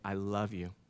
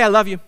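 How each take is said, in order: First: It is said slowly and warmly. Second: It is said quickly and offhandedly. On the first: The speaker cares about everything going on. The speaker calls it right. "You can say it in such a way that means you care about everything" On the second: It is said out of habit. The speaker calls it wrong. "you can just tell your wives, hey"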